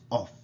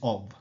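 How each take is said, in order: First: The word ends with an F sound. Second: The word ends with a V sound. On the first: The speaker calls it wrong. "the word of is not off" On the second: The speaker calls it right. "it's pronounced as a V"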